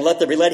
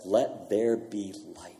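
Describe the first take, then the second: First: A fuller, stronger Let there be light, lifting on light; firm proclamation. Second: A hushed, slowed-down Let there be light; soft, slow command. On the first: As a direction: ring it out like a herald. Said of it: "not just him saying". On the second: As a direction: lean in and breathe it gently, unhurried. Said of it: "and he says". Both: Retold or imitated.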